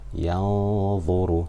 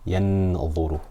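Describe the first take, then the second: First: The n sound is hidden in a nasal hum. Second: The n sound is pronounced fully and clearly. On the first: The speaker calls it right. "I'm making ghunna for two harakat" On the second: The speaker calls it wrong. "There I did idhar"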